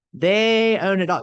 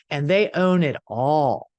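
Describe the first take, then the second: First: "They own it all" slower, higher and louder; slow stress on "They own it all". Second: Said in the usual way. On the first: Shown as a demonstration. Speaker repeats the point to viewers, slow and stressed. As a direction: lean hard on "own" and let it fall. Repeating the key phrase with emphasis.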